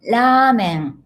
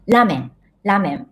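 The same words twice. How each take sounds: First: "ramen" with a drawn-out first a; "ramen" said as "raamen"; long vowel. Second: "ramen" with a short first vowel; "ramen" as learners say it, no long a. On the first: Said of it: "ramen is long vowel". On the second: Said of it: "many of my students said". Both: Shown as a demonstration.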